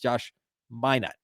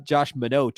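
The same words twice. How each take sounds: First: Minot is said like the city's name. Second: Minot is not said like the city's name. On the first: This is how the player says his own name. The speaker calls it right. "Like like the the uh, the city in North Dakota" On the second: This is how the interviewer said the name. The speaker calls it wrong. "It's it's not uh, Josh Minot or whatever he said"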